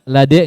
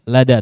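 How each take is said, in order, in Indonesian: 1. Vokal akhirnya condong ke e. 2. Vokal akhirnya tetap a biasa. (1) "lade enggak" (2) "lada tetap"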